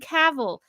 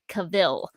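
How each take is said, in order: First: The name rhymes with travel. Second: The name does not rhyme with travel. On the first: The speaker calls it right. "I just rhyme it with travel" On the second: The speaker calls it wrong. "mispronounced Henry Cavill's name, pronouncing it as Cavill"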